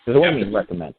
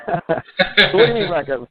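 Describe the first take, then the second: First: Said in the usual way. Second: "So what do you mean recom-" drawn out slowly, high and a bit louder; hammed-up disbelief, stretched slowly; mock incredulous. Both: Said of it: "I knew you'd get that joke".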